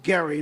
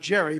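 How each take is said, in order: First: The name begins with a hard g sound. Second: The name begins with a soft j sound. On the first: This is how the man himself said his name. The speaker calls it right. "He pronounced it Gary" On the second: This is how the name is commonly said today. The speaker calls it wrong. "not Jerry"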